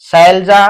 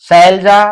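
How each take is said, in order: Both takes have the same delivery.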